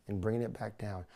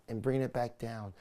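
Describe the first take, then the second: No difference in how they are said.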